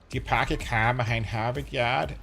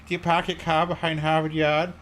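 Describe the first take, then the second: First: It is said in an exaggerated, botched Boston accent. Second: It is said in a plain, unexaggerated accent.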